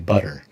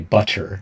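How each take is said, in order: First: The middle consonant is a soft D-like sound. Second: The middle consonant is a crisp T sound. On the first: This is how Americans say it. "we say butter" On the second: This is not how Americans say it. "Americans don't say butter"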